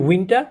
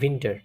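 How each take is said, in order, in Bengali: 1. শব্দটি w ধ্বনি দিয়ে শুরু হয়। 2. শব্দটি v ধ্বনি দিয়ে শুরু হয়। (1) "আমরা বলি উইন্টার" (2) "তারা বলে উইন্টার। যেহেতু এটা ভে উচ্চারণ"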